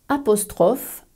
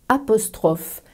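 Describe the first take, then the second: No difference in how they are said.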